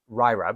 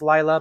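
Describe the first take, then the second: First: The name begins with an R-like sound. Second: The name begins with a clear L sound. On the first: The name is said the Japanese way. "It would be pronounced Ryra because they don't have the L sound in Japanese" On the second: The name is said the Chinese way. "if she's Chinese, it would be pronounced Lila"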